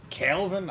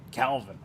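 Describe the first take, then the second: First: Mimicking Adesanya. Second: Said in the usual way. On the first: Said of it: "Izzy has kinda, like, a high-pitched voice". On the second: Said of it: "I can't do it".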